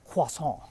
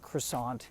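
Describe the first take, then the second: First: It is said with an attempted French pronunciation. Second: It is said with an American English pronunciation. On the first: "try to say croissant and miss" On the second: "just say croissant badly"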